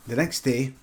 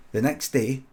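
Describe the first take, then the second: No difference in how they are said.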